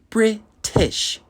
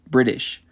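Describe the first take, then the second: First: The middle T is a crisp, clear T. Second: The middle T sounds soft, like a D. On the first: "in England, they would say British" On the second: "we would say British"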